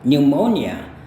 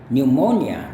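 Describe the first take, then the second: No difference in how they are said.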